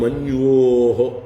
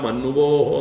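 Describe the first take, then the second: First: Both a y glide and a v sound follow. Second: Only a v sound follows the n. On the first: The speaker calls it right. "രണ്ടും കൂടി ചേർന്ന് ... ഒരു പ്രത്യേക ശബ്ദം ഉണ്ടാക്കണം" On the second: The speaker calls it wrong. "ഒന്നുമല്ല"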